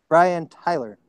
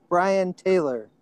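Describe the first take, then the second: First: Tyler said with an "eye" vowel; corrected name. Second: Taylor said with an "ay" vowel where "eye" belongs; mispronounced name. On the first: Host rereads the question with the name corrected, Tyler with an "eye". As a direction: say Tyler as TIE-ler. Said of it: "It's Brian Tyler". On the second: Host reads the composer's name wrongly, Taylor with an "ay". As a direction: say Taylor as TAY-ler. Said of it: "I may have said his name wrong". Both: Real, not acted.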